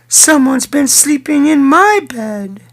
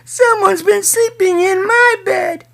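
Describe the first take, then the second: First: It is said in a medium-sized voice. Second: It is said in a tiny, small voice. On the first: "she said in her mid-sized voice" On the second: "cried in his wee little voice"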